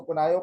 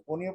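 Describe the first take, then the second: First: कोनायो, said "ko-naa-yo"; conio as ko-NAA-yo. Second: कोनियो, said "ko-ni-yo"; conio as KO-ni-yo. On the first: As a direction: say कोनायो with a long "naa-yo" ending. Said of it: "कुछ लोग उसको कोनायो पढ़ते हैं". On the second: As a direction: say कोनियो with a short "ni" in the middle. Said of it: "कुछ लोग उसको कोनियो पढ़ते हैं". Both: Shown as a demonstration.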